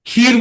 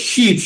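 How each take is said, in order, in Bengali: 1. শব্দটি kh ধ্বনি দিয়ে শুরু হয়। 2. শব্দটি sh ধ্বনি দিয়ে শুরু হয়। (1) "ক্ষীর বলি" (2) "ওরা বলে শির, স বলে ওটাকে"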